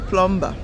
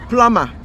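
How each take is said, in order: First: The b sound in the middle is pronounced. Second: The b sound in the middle is silent. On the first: The speaker calls it wrong. "some of our people will say plumber. No" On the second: The speaker calls it right. "that B is silent. It's plumber"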